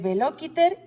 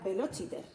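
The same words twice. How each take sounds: First: The c sounds like k. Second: The c sounds like ch. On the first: This is the classical Latin reading. "En latín clásico se leería" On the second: This is the ecclesiastical Latin reading, as in Italian. "en este latín eclesiástico sería velociter, igual que en, en italiano"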